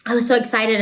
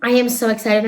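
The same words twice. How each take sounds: First: Said in the usual way. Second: Insisting she really is excited; stress on am. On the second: Shown as a demonstration. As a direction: lean into am to insist. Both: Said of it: "if I don't seem excited".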